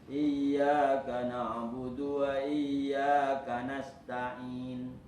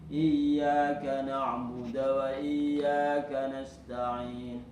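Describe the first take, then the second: No difference in how they are said.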